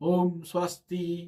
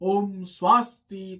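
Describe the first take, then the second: First: It is said in a middle voice. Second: It is said in a high voice. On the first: "মধ্যস্বরে বলবে" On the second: "উচ্চস্বরে বলবে"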